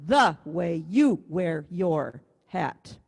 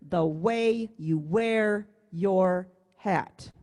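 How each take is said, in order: First: THE, YOU and YOUR hit hard and stretched, WAY and WEAR dropped; wrong emphasis. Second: WAY and WEAR held long and strong, THE and YOU light; slow, measured beat landing on WAY and WEAR; stress on WAY and WEAR. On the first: Music teacher showing the misprinted rhythm, stress on THE, YOU, YOUR. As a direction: lean slowly on THE, YOU, YOUR, passing lightly over WAY and WEAR. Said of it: "That's not how they sang it". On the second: Music teacher showing how they sang it, stress on WAY and WEAR. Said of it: "The emphasis should be on way and wear".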